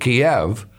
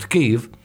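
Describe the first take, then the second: First: The name is pronounced in the older form, Kiev. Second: The name is pronounced in the newer form, Kyiv. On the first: This is how people used to say it. The speaker calls it wrong. "We used to pronounce it Kiev" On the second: This is the currently accepted pronunciation. The speaker calls it right. "now we understand it's pronounced Kyiv"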